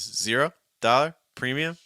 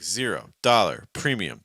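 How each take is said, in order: First: The pitch rises across the words. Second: The pitch falls across the words. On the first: "Those would be rising intonations" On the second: "That's a falling intonation"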